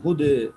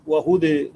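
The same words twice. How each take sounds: First: هدى with final vowel slightly tilted toward e; taqlil vowel. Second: وهدى with final vowel fully tilted to e; imala vowel. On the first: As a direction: say هدى in Warsh's taqlil, between a and e. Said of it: "فألف الكلمة ثابتة". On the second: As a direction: say وهدى as wa-hudé, Hamza's imala. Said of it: "لحمزة والكسائي". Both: Shown as a demonstration.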